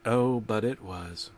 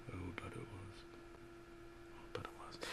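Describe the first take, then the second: First: Low and soft with dread. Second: Breathy dramatic whisper. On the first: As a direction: drop the voice into dread. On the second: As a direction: whisper it like a horror reveal. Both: A narrator's reading.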